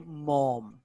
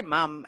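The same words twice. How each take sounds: First: "mom" the American way, drawn-out open vowel. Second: "mum" the Australian way, short open vowel. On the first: Showing how Americans say it, "mom" with long ah. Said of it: "and they say mom". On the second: Explaining how they say it at home, "mum" with short uh. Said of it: "We say mum and they say mom". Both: Shown as a demonstration.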